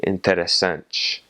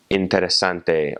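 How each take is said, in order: First: "interessante" with final te softened to "ch"; Brazilian ch sound. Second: "interessante" ending in a hard "teh"; continental Portuguese pronunciation. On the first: Teacher repeating after spelling the ending, Brazilian pronunciation. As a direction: say "interessante" slowly, ending in -SANCH. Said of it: "that last little syllable is". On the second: Teacher contrasting Portugal with Brazil, continental pronunciation. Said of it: "pronounce those T Is and T Es just like". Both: Shown as a demonstration.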